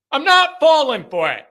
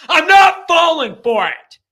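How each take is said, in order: First: Firm repeat. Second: Shouted high and loud, stress on "not"; defiant shout. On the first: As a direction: still loud, with "not" stressed. Repeats refusal, a bit calmer. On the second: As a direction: yell it, flat refusal, hitting "not" hard. Host refusing Jimbo's charm. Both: Real, not acted.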